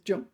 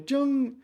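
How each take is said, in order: First: The syllable has a tone other than high level. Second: The syllable has a high level tone. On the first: It is the word's usual form. "normally it's" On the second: It is the word's form used for the first lunar month. "first tone, first month of the lunar year"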